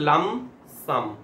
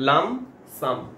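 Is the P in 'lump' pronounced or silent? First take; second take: silent; silent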